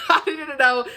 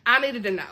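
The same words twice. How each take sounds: First: Louder, higher, laughing through it; laughing emphasis. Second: Said in the usual way. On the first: Real, not acted. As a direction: laugh as you insist on it. Repeats line, second time bigger.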